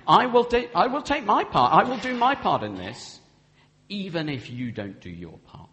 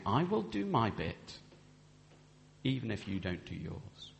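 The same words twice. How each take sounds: First: Louder, higher, determined promise; firm vow. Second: Quiet vow. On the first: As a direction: declare it boldly, like a vow. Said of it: "So that's saying". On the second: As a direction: say it gently and humbly. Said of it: "We're saying". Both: Shown as a demonstration.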